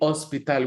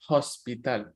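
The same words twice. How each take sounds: First: The word starts with no H sound. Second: The word starts with an audible H sound. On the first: The speaker calls it right. "the H is always silent. So we say hospital" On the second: The speaker calls it wrong. "we don't say hospital"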